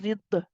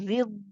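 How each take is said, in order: First: The final sound is let go with a release. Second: The final sound runs on steadily before stopping. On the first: The speaker calls it wrong. "But I'm not saying رض. The the is letting go" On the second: The speaker calls it right. "Can you see this running of the sound?"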